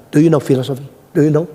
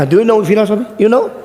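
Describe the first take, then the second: First: Mildly challenging question. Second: Higher, louder taunting question; challenging. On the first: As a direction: quiz them as a dare, in your usual pitch. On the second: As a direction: imitate a cocky student daring the stranger. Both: Retold or imitated.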